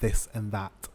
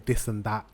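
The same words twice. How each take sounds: First: The words begin with a th sound. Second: The words begin with a d-like sound. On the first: Most other English speakers say it this way. "rather than this and that" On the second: Some London communities say it this way. "they say this and that"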